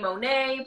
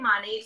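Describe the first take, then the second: First: The name is said with a French accent. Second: The name is said without a French accent. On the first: "put a little accent on it" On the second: "I say Monate"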